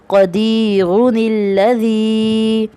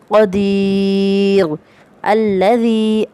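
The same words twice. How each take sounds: First: The two words are joined without a pause. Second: There is a pause after the first word.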